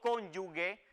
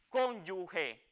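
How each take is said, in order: First: The last syllable has a hard g sound. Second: The last syllable has a raspy h sound. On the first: The speaker calls it wrong. "y no cónyuge, como a veces se oye indebidamente" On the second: The speaker calls it right. "esa es la pronunciación adecuada de este término"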